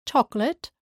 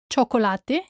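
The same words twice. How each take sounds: First: Chocolate as CHOK-lit; English pronunciation. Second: Chocolate as cho-ko-LA-te; Spanish pronunciation. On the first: Teacher contrasts with Spanish, English CHOK-lit for chocolate. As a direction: drop the last E of chocolate, English style. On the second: Teacher shows learners the Spanish word, cho-ko-LA-te for Chocolate. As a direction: sound the last E of Chocolate, Spanish style. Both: Shown as a demonstration. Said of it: "same in English and in Spanish".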